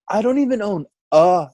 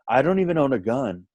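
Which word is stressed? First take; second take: a; gun. First: The word a is given strong stress. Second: The word a is not given extra stress. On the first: The speaker calls it right. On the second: The speaker calls it wrong.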